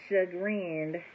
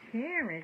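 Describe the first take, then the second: First: The word sounds like 'sha-grinned' with a g. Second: The word sounds like 'Karen' with an ending. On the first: The speaker calls it right. "Chagrin, I said Karen, chagrin" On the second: The speaker calls it wrong. "Am I even saying that right?"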